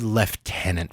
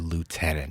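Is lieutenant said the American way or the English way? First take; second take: English; American. First: The word is said with an English pronunciation. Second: The word is said with an American pronunciation. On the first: "When English people say lieutenant" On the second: "for lieutenant"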